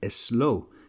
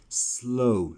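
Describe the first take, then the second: First: An extra 'e' vowel comes before the s. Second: The word starts directly with the s sound. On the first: The speaker calls it wrong. "many of you put an E before you say the word. For example, you would say slow" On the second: The speaker calls it right. "start saying slow, slow, slow, and not put an E in front of it"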